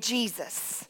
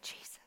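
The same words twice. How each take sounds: First: It is spoken in a normal voice. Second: It is whispered.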